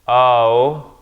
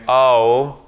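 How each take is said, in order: Both takes have the same delivery.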